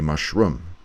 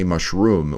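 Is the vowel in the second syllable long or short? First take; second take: short; long. First: The second syllable has a short oo vowel. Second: The second syllable has a long oo vowel. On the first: The speaker calls it right. "we say mushroom" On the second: The speaker calls it wrong. "we don't say mushroom"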